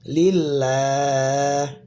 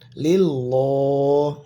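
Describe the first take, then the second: First: The doubled L is pronounced light and thin. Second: The doubled L is pronounced heavy and thick. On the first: The speaker calls it right. "dibacanya tipis ya" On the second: The speaker calls it wrong.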